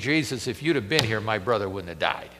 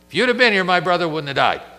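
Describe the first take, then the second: First: It sounds tearful and pleading. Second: It sounds confrontational and accusing.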